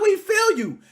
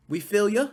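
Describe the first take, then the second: First: We feel you shouted high and loud; loud insistent "We feel you"; proper form. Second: Dismissive quote. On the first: Shown as a demonstration. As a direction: hit "We feel you" hard as the correct line. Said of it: "It's not". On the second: Retold or imitated. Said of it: "How do you say that shit?".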